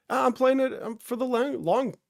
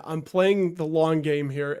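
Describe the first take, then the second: First: Trips over the words, voice jumping higher; stumbling start, losing the phrase; tongue-tied stumble. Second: Said in the usual way. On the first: Real, not acted. Streamer fumbles his line to chat, tongue-tied. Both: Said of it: "tongue-tied".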